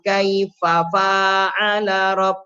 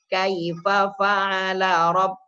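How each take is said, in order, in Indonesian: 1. Vokal setelah 'fa' yang digabung dibaca panjang. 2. Vokal setelah 'fa' yang digabung dibaca pendek. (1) "ini seringnya" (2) "Yang benar"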